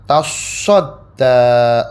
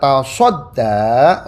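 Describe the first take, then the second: First: The 's' sound is held and doubled. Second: The 's' sound is short, not doubled. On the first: "sodnya dengan tasdid" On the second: "sodnya tanpa tasdid"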